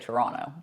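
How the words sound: It is said the way Toronto locals say it. The speaker is from Toronto. "You know you're from Toronto if you say Toronto"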